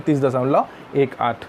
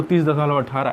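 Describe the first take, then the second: First: तीस दशमलव एक आठ, each digit after दशमलव said separately; correct reading. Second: तीस दशमलव अठारह, decimal part read as one number अठारह; wrong reading. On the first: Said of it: "इसको हम पढ़ते हैं". (सही तरीका: दशमलव के बाद एक आठ अलग-अलग अंक) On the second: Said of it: "ऐसा नहीं पढ़ेंगे". (गलत तरीका: दशमलव के बाद अठारह एक संख्या की तरह) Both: Shown as a demonstration.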